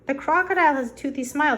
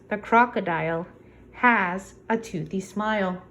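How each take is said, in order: First: It is read straight through without a pause. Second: It is read with a pause at the line break.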